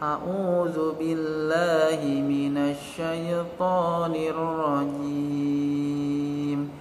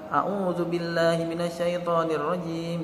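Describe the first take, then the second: First: The phrase is recited very slowly. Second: The phrase is recited very quickly. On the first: "Itu terlalu lambat" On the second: "itu terlalu cepat"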